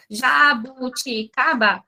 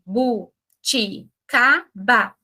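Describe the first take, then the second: First: "jabuticaba" esticada, com as sílabas quase grudadas; sílabas emendadas. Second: "ja... bu... ti... ca... ba", very slow, a pause after each syllable; sílaba por sílaba. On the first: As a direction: arraste "jabuticaba" sem separar bem as sílabas. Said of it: "a palma distrai, se for uma palavra grande". ("jabuticaba" com sílabas alongadas e emendadas) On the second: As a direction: split "jabuticaba" into five clearly separate syllables. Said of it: "Agora, ó". ("jabuticaba" bem devagar, pausando em cada sílaba) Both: Shown as a demonstration.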